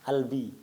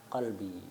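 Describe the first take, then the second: First: It starts with a glottal stop, Egyptian style. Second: It starts with a deep back q sound. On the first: "Orang Mesir, kofnya jadi hamzah" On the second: "Itu qalbi"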